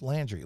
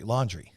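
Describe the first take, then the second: First: "Landry" with the flat a of "land"; first vowel of "Landry" as in hand; pronunciation of Landry. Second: "Laundry" said like washing clothes; pronunciation of Laundry. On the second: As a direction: say "Laundry", first syllable lawn. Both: Shown as a demonstration. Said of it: "figure out how to pronounce his last name".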